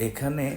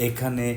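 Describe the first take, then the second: The two takes are said the same way.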